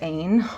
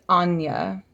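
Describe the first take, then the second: First: The name is said as 'Ain'. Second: The name is said as 'Anya'. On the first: The speaker calls it wrong. "I always said Ain. Clearly I was wrong" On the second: The speaker calls it right. "It's Anya is how you say it"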